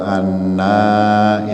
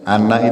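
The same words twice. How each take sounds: First: The final vowel is said long. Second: The final vowel is said short. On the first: It means we. "Beda artinya kalau panjang dan pendek" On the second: It means I. "ini anak pendek nggih"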